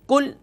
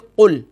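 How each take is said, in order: First: It starts with a light, thin front 'k' sound. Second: It starts with a deep, thick back 'q' sound. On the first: It means 'eat'. The speaker calls it wrong. "यहाँ हमने पढ़ा बारीक काफ से कुल" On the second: It means 'say'. The speaker calls it right. "असल लफ्ज़ है मोटे काफ से कुल"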